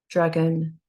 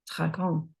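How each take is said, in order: First: It is pronounced with English sounds. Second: It is pronounced with French sounds. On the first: "say the English" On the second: "then the French"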